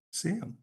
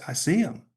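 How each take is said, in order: First: The repeat catches in the throat and goes faint; choked-up high squeak of disbelief; voice cracking. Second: Said in the usual way. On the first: Retold or imitated. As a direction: pitch jumps high as the voice breaks, then fades soft. Retelling seeing Jesus, overwhelmed.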